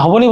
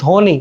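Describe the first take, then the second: First: ধ্বনি said "dho-bo-ni"; wrongly sounded b. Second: ধ্বনি said "dho-ni", no b; silent b. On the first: Teacher showing what we don't say, b sounded in ধ্বনি. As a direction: add a spoken "bo" inside ধ্বনি. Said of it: "আমরা কিন্তু ধ্বনি বলছি না". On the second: Teacher giving what we do say, b-less ধ্বনি. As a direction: leave the b out of ধ্বনি. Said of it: "আমরা বলছি ধ্বনি". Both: Shown as a demonstration.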